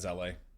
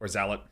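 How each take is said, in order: First: The name ends without a sounded t. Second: The name ends with a sounded t.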